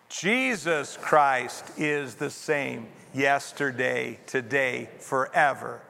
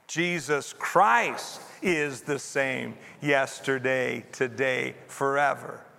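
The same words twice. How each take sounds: First: The stress is on the word Jesus. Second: The stress is on the word Christ.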